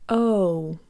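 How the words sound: The vowel glides closed toward oo. "In English, the letter O closes to an oo sound"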